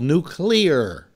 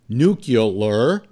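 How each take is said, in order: First: The word is said as 'nu-cle-ar'. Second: The word is said as 'nu-cu-lar'. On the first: The speaker calls it right. "it's spelled nuclear" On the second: The speaker calls it wrong. "it's not spelled nuclear"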